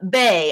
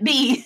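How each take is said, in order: First: The name is said with an 'ay' vowel. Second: The name is said with an 'ee' vowel. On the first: The speaker calls it right. "I think it's uh, Bay" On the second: The speaker calls it wrong. "I see B as like Aunt B"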